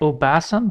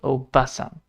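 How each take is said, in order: First: The vowel after the b is held long. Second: The vowel after the b is kept short. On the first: The speaker calls it wrong. "So not obasan" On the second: The speaker calls it right. "but obasan, because there is no double A on it"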